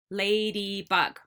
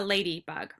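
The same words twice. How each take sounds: First: Ladybug stretched into three even beats; syllable by syllable. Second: Said in the usual way. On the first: Shown as a demonstration. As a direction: tap out Ladybug, holding each syllable. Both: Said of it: "tap each syllable".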